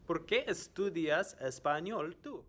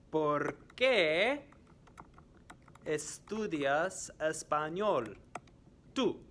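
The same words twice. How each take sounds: First: "¿Por qué estudias español tú?" high and joined up; high, clear teacher question; quiz question in one go. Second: "¿Por qué" high and loud, "estudias español" slow, "tú" apart; slow and split up for learners; slow quiz question. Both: Shown as a demonstration. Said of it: "I am going to ask some questions".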